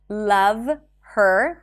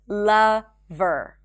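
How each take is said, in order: First: The H sound in her is pronounced. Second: The H sound in her is dropped. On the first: "Instead of saying love her" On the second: "remember we drop the H in pronouns"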